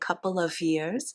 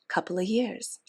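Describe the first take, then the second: First: The f sound in 'of' is clearly pronounced. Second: The f sound in 'of' is dropped. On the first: The speaker calls it wrong. "it takes more time, it takes more effort, it sounds less natural" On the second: The speaker calls it right. "I don't pronounce that F. It's a lot easier"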